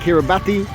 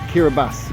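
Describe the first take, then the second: First: The 'ti' is said with a t sound. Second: The 'ti' is said with an s sound. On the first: The speaker calls it wrong. "don't say Kiribati" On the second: The speaker calls it right. "we say the T as an S"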